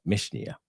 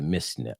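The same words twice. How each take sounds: First: Mishnah with a clear sh, "Mish-nee-a"; higher corrected Mishnah, sh in the middle; self-corrected pronunciation. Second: Mishnah slipped to "Miss-na", s for sh; tongue-tied slip. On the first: Fixing his own slip for viewers, Mishnah re-said with sh. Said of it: "can't pronounce a lot of these English words properly". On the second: Showing viewers the site, tongue-tied Mishnah said as "Miss-na". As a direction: stumble on Mishnah, saying an s sound in the middle. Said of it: "I get tired tongue and can't pronounce". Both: Real, not acted.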